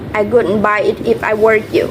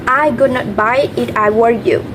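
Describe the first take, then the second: First: Would not is contracted to one word. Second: Would not is said as two full words.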